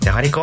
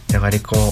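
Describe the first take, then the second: First: The word is said in an angry tone. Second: The word is said in a sad tone. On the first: "怒ってて" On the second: "悲しくて"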